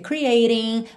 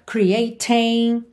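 First: The T is a soft flap, American style. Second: The T is said clearly, British style.

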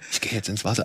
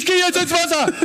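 First: It is said quietly, almost whispered. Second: It is said loudly, almost shouted.

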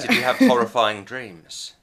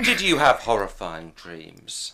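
First: It sounds overly eager and excited. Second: It sounds gently worried and sympathetic.

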